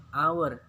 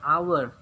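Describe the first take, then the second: First: "Hour" repeated as awar, h not sounded; silent h in hour. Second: "Hour" said as awer with no h sound; silent h in hour. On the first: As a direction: say "Hour" again without the h. (ucapkan "Hour" tanpa bunyi h) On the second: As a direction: drop the h in "Hour". ("Hour" dibaca tanpa huruf h) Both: Shown as a demonstration. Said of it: "tulisannya hour tapi dibaca hour".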